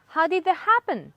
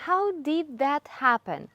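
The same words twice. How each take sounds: First: Higher, louder 'How did that happen' with sounds linked; blended form. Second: Slow, careful 'How did that happen' with each word whole; full form. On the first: Teacher showing native blending, linked and raised. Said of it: "They are just blending sounds together". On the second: Teacher giving learners the full phrase, slow and separated. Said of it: "Even shorter". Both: Shown as a demonstration.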